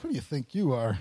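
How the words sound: It sounds accusing and negative.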